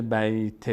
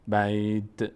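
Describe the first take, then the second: First: بیت turned into "bayte"; wrong added vowel. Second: بیت closing on a t with no vowel; correct bare t. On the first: Teacher shows what it mustn't become, wrong added vowel. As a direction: tack a short e onto the t of بیت. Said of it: "نشه". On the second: Teacher shows the right stop, correct bare t. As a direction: end بیت on just the sound of t. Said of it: "فقط صدای ت ظاهر بشه". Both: Shown as a demonstration.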